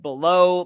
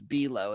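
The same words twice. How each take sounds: First: The first syllable is short and weak, like 'bih'. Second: The first syllable sounds like 'bell'. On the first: It is the ordinary word meaning underneath. "like below" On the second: It is how the man said his own surname. "I think it's Below is how he pronounced it. B E L"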